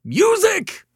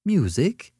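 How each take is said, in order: First: MUSIC shrilled very high and loud. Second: High, rising query at moderate volume; puzzled question. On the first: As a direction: shriek the word MUSIC in exasperation. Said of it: "shrilled Mister Morrison". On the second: Startled listener queries the caller's word. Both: A narrator's reading.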